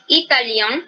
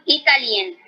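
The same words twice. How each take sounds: First: "italiano" said as French italien, nasal ending with no n sounded; "italiano" with a nasal final vowel, French masculine. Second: "italien" said as italienne, with a clear n sounded at the end; "italien" ending in a plain n, no nasal vowel; feminine French italienne. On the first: Teacher shows the masculine form to her class, nasal ending. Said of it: "es más nasal". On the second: Teacher contrasts the feminine form for students, n sounded. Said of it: "la pronunciación acá sí va a cambiar". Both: Shown as a demonstration.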